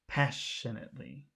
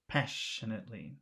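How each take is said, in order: Both takes have the same delivery.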